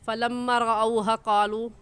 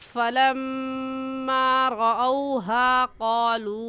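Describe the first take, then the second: First: The long vowels are cut short. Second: The long vowels are held long. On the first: The speaker calls it wrong. "पढ़ना गलत हो जाएगा" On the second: The speaker calls it right. "सही ऐसे होगा"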